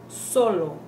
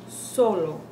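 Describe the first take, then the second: Both takes have the same delivery.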